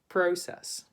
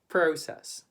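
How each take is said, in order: Both takes have the same delivery.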